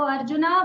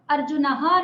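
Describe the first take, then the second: First: "arjuna" with a rising call; calling form. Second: "अर्जुनः" ending in a breathy "ह"; the incorrect "अर्जुनः" with the visarga sounded; "अर्जुनः" with the final "अः" breathed out; wrong form. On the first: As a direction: summon him with "arjuna". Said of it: "बुलाएंगे". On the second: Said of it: "नहीं बुलाएंगे". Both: Shown as a demonstration.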